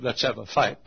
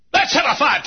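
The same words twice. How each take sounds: First: Said in the usual way. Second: Shouted dare. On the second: Acted.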